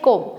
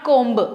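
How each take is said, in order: First: The word ends without a b sound. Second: The word ends with a b sound. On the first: The speaker calls it right. "बी होता है silent, so you have to से कोम" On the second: The speaker calls it wrong. "Not कोम्ब"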